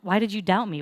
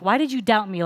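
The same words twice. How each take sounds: First: It is said in a gentle, concerned tone. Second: It is said in a harsh, scolding tone. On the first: The listener is being cared for and taught. The speaker calls it right. "it was more like a concerned parent" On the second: The listener is being punished for failing. The speaker calls it wrong. "we read it as Jesus scolding Peter for messing up"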